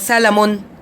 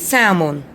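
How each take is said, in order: First: The L sound is clearly pronounced. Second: The L sound is silent. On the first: The speaker calls it wrong. "we don't say salmon" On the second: The speaker calls it right. "letter L is the silent"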